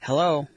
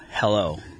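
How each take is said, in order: First: It is said in a high-pitched voice. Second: It is said in a low, deep voice.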